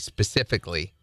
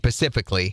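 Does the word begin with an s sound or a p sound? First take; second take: s sound; p sound. First: The word begins with an s sound. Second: The word begins with a p sound. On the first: The speaker calls it right. "specifically is correct" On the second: The speaker calls it wrong. "people who work in this building who say"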